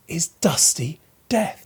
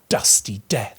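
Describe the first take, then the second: First: Whispered "dusty death" with the D's landing heavily; hushed whisper. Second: "dusty death" low, with heavy thudding D's; "dusty death" dropped low, the D's thudding. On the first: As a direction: breathe "is dusty death" like a secret. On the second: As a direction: hit both D's in "dusty death" hard and deep. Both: Shown as a demonstration. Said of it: "heavy thudding alliteration of the D's".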